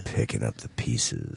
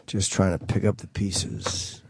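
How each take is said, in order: First: Low, lingering radio delivery; smooth radio voice. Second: Radio voice. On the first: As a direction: lean into the deep DJ tone. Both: Shown as a demonstration. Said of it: "It's my radio voice".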